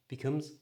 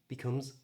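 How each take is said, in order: Both takes have the same delivery.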